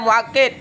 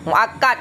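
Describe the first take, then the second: First: The vowel after the double k is 'i'. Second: The vowel after the double k is 'a'. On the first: The speaker calls it wrong. "Jangan dibaca muakkid" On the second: The speaker calls it right. "dengan fathah kaf, muakkad dibaca"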